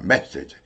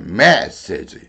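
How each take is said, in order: First: The first syllable is forcefully driven down. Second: The first syllable is lifted up in pitch. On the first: The speaker calls it wrong. "한국 사람들은 메시지 이렇게 말을 합니다" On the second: The speaker calls it right. "메 올라왔어요"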